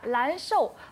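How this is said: The word begins with an L sound. It was heard as a different word. "발음이 사투리다 보니까 란쇼"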